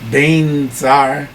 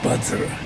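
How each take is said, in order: First: The first syllable sounds like 'bain'. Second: The first syllable sounds like 'buds'. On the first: This is how Tibetans pronounce it. The speaker calls it wrong. "the way Tibetans pronounce it" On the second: This is how North Indians pronounce it. The speaker calls it right. "Budsra would be fine"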